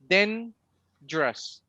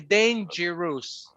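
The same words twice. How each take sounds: First: The middle syllable is dropped entirely. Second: The middle syllable is fully pronounced. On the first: The speaker calls it right. "I eliminate this one because it has no sound, no stress. So the, the correct word is dangerous" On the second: The speaker calls it wrong. "I don't need to say dangerous"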